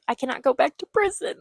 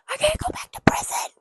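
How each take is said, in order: First: Said in the usual way. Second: Hammed-up high, weepy whisper; fake-cry it over the top; whimpering melodramatic plea; mock sobbing whisper. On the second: Mock-crying retake of character line.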